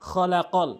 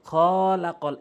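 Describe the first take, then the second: First: The vowels are short and said quickly. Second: The vowels are stretched out slowly. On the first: The speaker calls it right. "আমি বলছি খলাকল" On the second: The speaker calls it wrong. "এভাবে বলছি না"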